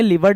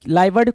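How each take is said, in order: First: The first vowel sounds like 'live'. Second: The first vowel sounds like 'lie'. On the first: "लिवर्ड भी कुछ लोग पढ़ेंगे" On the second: "लाइवर्ड कुछ लोग पढ़ेंगे"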